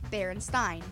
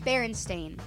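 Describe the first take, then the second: First: The last syllable is not said like 'stain'. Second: The last syllable is said like 'stain'. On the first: This is the common but mistaken form of the name. The speaker calls it wrong. "And most people say" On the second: This is the correct form of the name. The speaker calls it right. "pronounce it again the way it's supposed to be"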